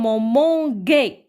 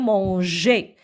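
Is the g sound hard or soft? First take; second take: hard; soft. First: The g is a hard g sound. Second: The g is a soft zh sound. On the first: The speaker calls it wrong. "ça se lit comme manguer, parce que G avec A se prononce ga" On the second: The speaker calls it right. "il faut ajouter le E pour la prononcer manger"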